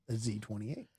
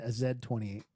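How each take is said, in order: First: It is said in an American accent. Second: It is said in an English accent.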